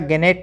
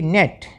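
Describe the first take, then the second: First: The word begins with a g sound. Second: The word begins with an n sound. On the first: The speaker calls it wrong. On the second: The speaker calls it right.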